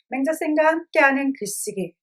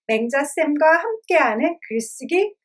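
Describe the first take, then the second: First: The syllables are articulated in a normal relaxed way. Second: Each syllable is chewed out with exaggerated crispness. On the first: "그냥 읽을 땐 이래요" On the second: "꽉꽉 씹듯이 읽으면"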